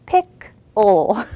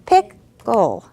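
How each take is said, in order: First: Loud two-beat pick-le; syllables pounded out. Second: Loud two-beat pick-le; syllables pounded again. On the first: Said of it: "Let's pound it out". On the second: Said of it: "Should we do it again". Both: Shown as a demonstration. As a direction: pick and le punched apart, louder.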